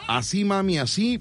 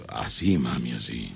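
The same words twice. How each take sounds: First: Said in the usual way. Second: Much lower and softer, coy northern murmur; host demonstrating a low coquettish line to the caller; flirty northern come-on. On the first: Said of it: "pero de una manera coqueta". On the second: Shown as a demonstration. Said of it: "de una manera coqueta, del norte".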